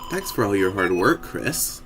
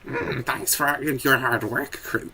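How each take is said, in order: First: It is said in a smoother, non-gremlin voice. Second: It is said in a gremlin-like goblin voice.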